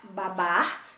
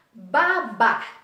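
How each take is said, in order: First: Said in the usual way. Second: Babar with the last syllable punched loud; stress on final syllable. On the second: Shown as a demonstration. Teacher demonstrating the stressed last syllable of babar. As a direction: hit the end of babar.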